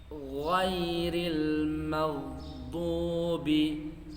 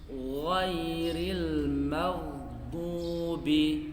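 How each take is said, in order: No difference in how they are said.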